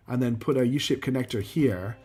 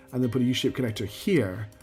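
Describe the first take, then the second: No difference in how they are said.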